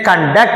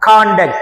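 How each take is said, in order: First: The stress is on the second syllable. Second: The stress is on the first syllable. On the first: It is a verb meaning to organize. "అదే conduct అంటే నిర్వహణ క్రియ అవుతుంది" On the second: It is a noun meaning behaviour. "కా మీద stress చేశా"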